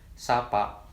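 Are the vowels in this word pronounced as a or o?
a. Both vowels are pronounced as a clear open a. This is how ngapak dialect speakers say it. "kata tersebut akan tetap terucap dengan huruf A yang jelas"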